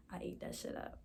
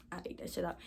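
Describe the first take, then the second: First: Unvoiced whispered boast. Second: Said in the usual way. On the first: Real, not acted. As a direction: whisper it to yourself, pleased. Self-praise muttered after rhyming.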